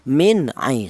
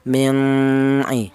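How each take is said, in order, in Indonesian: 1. Bunyi n dibaca jelas sebelum vokal. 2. Bunyi n tersembunyi dan samar menjadi sengau. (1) "nun mati ini dibaca jelas" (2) "nun mati ini jangan disamarkan, jangan seperti contoh"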